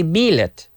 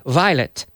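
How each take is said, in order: First: Violet as bilet, b sound and short i; wrong pronunciation. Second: Violet as vye-let, with a clear v; correct pronunciation. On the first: Teacher warning students off the wrong way, violet as bilet. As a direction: say violet Spanish style, bilet. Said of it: "We don't say". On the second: Teacher giving students the right way, violet as vye-let. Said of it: "but vi". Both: Shown as a demonstration.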